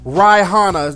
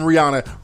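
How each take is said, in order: First: The name is said in a mimicked, off pronunciation. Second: The name is said in its usual pronunciation. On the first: Someone else mispronounced the name this way. The speaker calls it wrong. "Can't even pronounce the bitch name right" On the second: This is how the name is normally said. The speaker calls it right. "not even Rihanna"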